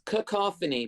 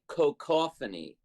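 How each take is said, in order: First: The first syllable does not sound like 'cocoa'. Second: The first syllable sounds like 'cocoa'. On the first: The speaker calls it right. "it's cacophony" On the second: The speaker calls it wrong. "I used to say cacophony. Get it like cocoa?"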